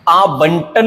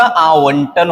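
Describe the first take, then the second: First: आवंटन said as "aa-bantan". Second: आवंटन said slowly as "aa-vantan"; clear व. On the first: Teacher showing the mistake, आवंटन with b sound. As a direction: put a b in आवंटन. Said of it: "आवंटन नहीं होता". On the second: Teacher correcting, आवंटन slow with v sound. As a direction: round the v/w in आवंटन. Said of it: "आवंटन होता है". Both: Shown as a demonstration.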